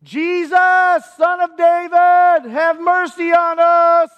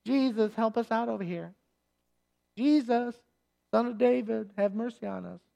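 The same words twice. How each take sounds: First: High, loud, slow wail of a plea; desperate cry. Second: Soft, meek little request; a half-hearted ask for mercy; timid mock plea. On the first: Retold or imitated. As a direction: cry out to be heard over a crowd. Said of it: "He'd say". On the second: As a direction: say it politely, almost under your breath. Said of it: "So this isn't".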